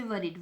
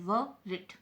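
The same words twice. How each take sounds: First: Said in the usual way. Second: "worried" broken in two, "wor", "ried"; split into syllables. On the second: Shown as a demonstration. Teacher counting two syllables for students, "worried" split apart. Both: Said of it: "double syllable है".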